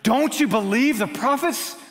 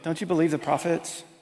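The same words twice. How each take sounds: First: It is said with strong, urgent feeling. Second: It is said in a mild, offhand way. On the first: The speaker calls it right. "hear the passion in Paul's voice" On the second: The speaker calls it wrong. "is not just saying"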